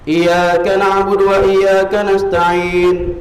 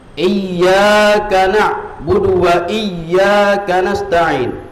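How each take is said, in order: First: The y sound in iyyaka is short, single. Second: The y sound in iyyaka is held doubled. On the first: To the sun we worship and ask for help. The speaker calls it wrong. "Tasdidnya hilang" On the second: Only you we worship and only you we ask for help. The speaker calls it right. "Ada tasdid di situ"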